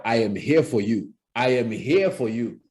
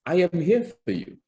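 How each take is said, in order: First: Intimidating. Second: Warm, friendly coach. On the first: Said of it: "if you found me intimidating and I walked into your room speaking like that". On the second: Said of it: "I, as a public speaking coach". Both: Shown as a demonstration.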